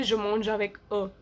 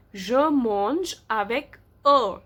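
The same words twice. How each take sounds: First: Said in the usual way. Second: Very slow, word by word; slow model reading. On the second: Shown as a demonstration. Teacher reading written example to the class, slowly. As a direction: draw out each word for learners.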